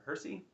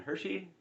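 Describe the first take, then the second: First: The middle consonant is a plain 's' sound. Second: The middle consonant is an 'sh' sound. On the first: The speaker calls it right. "I guess there's no H there" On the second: The speaker calls it wrong. "I've been saying it wrong for years"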